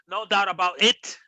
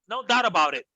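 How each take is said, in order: First: The T sounds are popped hard and clearly released. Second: The T sounds are softened and blended into speech. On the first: The speaker calls it wrong. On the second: The speaker calls it right.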